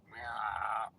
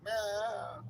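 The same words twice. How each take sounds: First: Mock meow. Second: High, whiny cat meow; high mock meow. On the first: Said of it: "He got meowing". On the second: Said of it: "Romeo, he's like".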